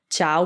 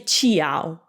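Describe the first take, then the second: First: The i is silent, one syllable chow. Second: The i is sounded before the ao. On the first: The speaker calls it right. "the I's purpose is not to be pronounced" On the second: The speaker calls it wrong. "we don't say chiao"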